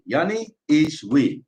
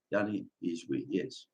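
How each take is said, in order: First: Slow declaration. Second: Much softer, lower, almost to himself; soft echo. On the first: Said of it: "repeated, first take slow". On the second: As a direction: let the words fall away in a murmur. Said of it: "repeated as soft echo". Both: Shown as a demonstration.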